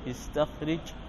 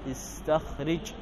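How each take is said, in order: Both takes have the same delivery.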